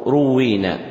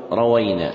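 First: روينا with damma on ra, doubled waw; u first, doubled w, long ee in روينا; ruwwina pronunciation. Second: روينا with fatha on ra and waw; rawayna pronunciation. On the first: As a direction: say روينا as "ru-WWEE-na". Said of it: "بضم الراء وكسر الواو مشددة". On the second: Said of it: "بفتح الراء والواو". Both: Shown as a demonstration.

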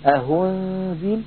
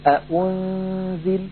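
First: أهنزل with an h replacing the hamza; wrong reading with h; h instead of hamza. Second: أأنزل with both hamzas hard, slow; over-articulated hamza; full hamza, wrong. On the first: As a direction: demonstrate the error أهنزل. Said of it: "من إبدالها هاء بأن يقول". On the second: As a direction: show أأنزل with a full second glottal stop as a mistake. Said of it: "وليحذر من تحقيقها". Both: Shown as a demonstration.

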